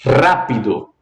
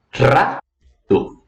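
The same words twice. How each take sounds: First: Said in the usual way. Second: Rápido very slowly split, RÁ, pause, pi-do; teacher's drawn-out syllable demo of rápido, stressing RÁ; stress on first syllable. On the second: Shown as a demonstration. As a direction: hold RÁ apart, then let pi-do drop. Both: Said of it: "tem uma maior entonação".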